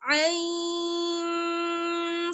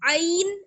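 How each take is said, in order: First: The final n sound is softened and hidden. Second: The final n sound is fully clear. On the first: The speaker calls it right. "नून की आवाज को हम थोड़ा सा छुपा कर पढ़ेंगे" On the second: The speaker calls it wrong. "ऐसे साफ नहीं पढ़ेंगे"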